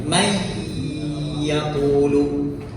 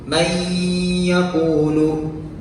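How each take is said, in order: The two takes are said the same way.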